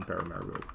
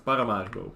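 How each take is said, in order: First: "Paramaribo" said the American way, flattened vowels, "pair-uh-mare-uh-bo"; anglicized "Paramaribo" with an English R; "Paramaribo" in an American accent, not the Dutch way; American pronunciation. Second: "Paramaribo" the Dutch way, "pah-rah-MAH-ree-bo" with open a vowels and rolled r; "Paramaribo" met Nederlandse uitspraak; Dutch pronunciation. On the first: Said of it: "I use an American accent". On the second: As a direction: say "Paramaribo" as in Holland. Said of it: "how we say it in Holland". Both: Shown as a demonstration.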